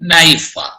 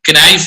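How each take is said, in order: First: The word starts with no K sound. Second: The word starts with an audible K sound. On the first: The speaker calls it right. "ചിലത് silent ആണ്" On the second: The speaker calls it wrong. "ക്നൈഫ് അല്ല"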